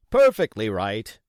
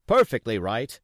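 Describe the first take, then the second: First: Hearty, louder cheerful agreement; cheerily. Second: Cheerily. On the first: Dance interrupting Jim, cheery and hearty. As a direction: agree heartily, cutting him off. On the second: Dance repeating his approval to Jim, cheery. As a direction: agree warmly again. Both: A narrator's reading. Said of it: "very cheerily".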